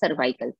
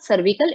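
First: The second syllable has an 'eye' vowel. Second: The second syllable has a short 'ih' vowel. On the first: The speaker calls it right. "It is सर्वाइकल. Pronounce वैसे ही करेंगे" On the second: The speaker calls it wrong. "It's not सर्विकल"

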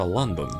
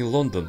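First: London is said with English vowels. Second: London is said with Russian vowels. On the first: The speaker calls it right. "это Лондон" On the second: The speaker calls it wrong. "это не Лондон"

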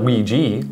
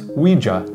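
First: The word ends with an ee sound. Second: The word does not end like squeegee. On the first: The speaker calls it wrong. "not Ouija, like squeegee" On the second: The speaker calls it right. "it's pronounced Ouija"

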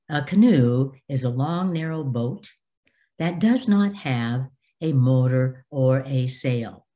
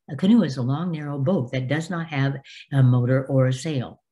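First: It is read at a moderate pace. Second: It is read too fast.

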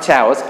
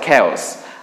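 First: The word begins with a ch sound. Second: The word begins with a k sound. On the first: The speaker calls it wrong. "not chaos" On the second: The speaker calls it right. "this is read as chaos"

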